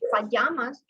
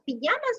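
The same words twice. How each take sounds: First: The word is pronounced the English way. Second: The word is pronounced the Spanish way. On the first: "in English" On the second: "is in Spanish"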